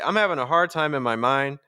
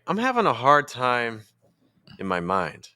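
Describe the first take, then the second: First: It stays on the same pitch throughout. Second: It starts high, then drops lower after 'time'. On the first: The sentence is one undivided thought group. The speaker calls it wrong. "now I'm just using the same pitch over and over again" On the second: The sentence is split into two thought groups. The speaker calls it right. "I'll start high and then in the second part I'll go lower"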